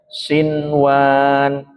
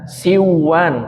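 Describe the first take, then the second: First: The n sound is pronounced clearly. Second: The n sound is dropped and merged. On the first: The speaker calls it right. "tapi dibaca sinwan" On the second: The speaker calls it wrong. "bukan dibaca siwan"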